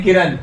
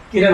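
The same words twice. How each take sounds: First: किरण with a plain dental n at the end, the wrong way; wrong pronunciation. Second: किरण with a retroflex ण at the end, the correct way; correct pronunciation. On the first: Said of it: "किरण नहीं होता है". (किरण का गलत उच्चारण, दंत्य न के साथ) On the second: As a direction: end किरण on a retroflex ण, tongue curled back. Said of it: "किरण होता है". (किरण का सही उच्चारण, मूर्धन्य ण के साथ) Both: Shown as a demonstration.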